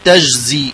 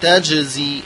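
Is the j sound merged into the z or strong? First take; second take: merged; strong. First: The j is soft and blended into the z. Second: The j is strong and bouncing, kept separate. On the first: The speaker calls it wrong. "يقول تجزي وهو خطأ" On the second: The speaker calls it right. "إذا فعلتها قرأتها بشدتها وقوتها فلا تنمزج في الزاي"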